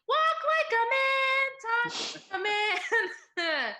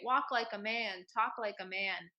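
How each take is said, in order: First: It is said in a very high voice. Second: It is said in a normal, lower voice.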